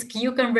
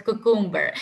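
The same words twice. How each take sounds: First: Cucumber as KYOO-cumber, with the y glide; correct cucumber. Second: Cucumber as KOO-koom-ber, no y glide; wrong cucumber. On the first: Teacher models cucumber for exam students, loud. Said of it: "If it is cucumber". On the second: Teacher mimics the common wrong cucumber, loud. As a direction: show the flat koo in cucumber. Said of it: "it's not cucumber". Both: Shown as a demonstration.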